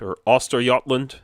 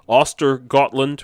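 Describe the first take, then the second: First: The name is said in the Swedish way. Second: The name is said in an English way.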